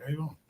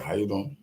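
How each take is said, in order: First: "How you doing?" pitched higher and softer with a rising end; alternative greeting. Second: Said in the usual way. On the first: Shown as a demonstration. Greeting her the other way instead, higher and softer. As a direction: lift "How you doing?" up high and soft, ending on a rise. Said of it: "I'm like". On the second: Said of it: "Instead of".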